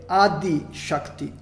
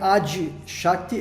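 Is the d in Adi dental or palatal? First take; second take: dental; palatal. First: The d in Adi is a dental d. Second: The d in Adi sounds palatal, like dj. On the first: The speaker calls it right. "é Adi Shakti" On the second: The speaker calls it wrong. "aqui não é Adi Shakti"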